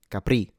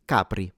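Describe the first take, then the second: First: Capri stressed on the last syllable, ca-PRI, French style; wrong end stress. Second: Capri stressed on the first syllable, CA-pri; Italian Capri. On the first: Teacher showing learners the wrong stress on Capri. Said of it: "not stressed at the end". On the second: Teacher giving learners the right Italian stress on Capri. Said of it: "since this is an Italian word". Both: Shown as a demonstration.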